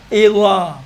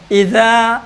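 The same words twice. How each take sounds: First: اذا thick and rounded, "izaw"; heavy zaa. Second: اذا with a thin, open th-like ذ; thin zaal. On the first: Teacher contrasts with the thin form, heavy. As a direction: fatten the ذ of اذا into a ظ. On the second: Teacher contrasts with the heavy form, thin. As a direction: keep اذا light, vowel open. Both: Shown as a demonstration. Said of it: "اب اسی اذا کو موٹا پڑھو".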